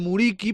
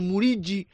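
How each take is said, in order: First: The name is pronounced the Spanish way. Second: The name is pronounced the Albanian way. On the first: "en lugar de" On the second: "para pronunciarlo en albanés"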